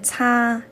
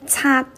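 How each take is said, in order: First: The syllable is longer and open like Mandarin. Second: The syllable is short and cut off abruptly. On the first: The speaker calls it wrong. "很容易变成了一个擦，跟普通话一样" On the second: The speaker calls it right. "要短"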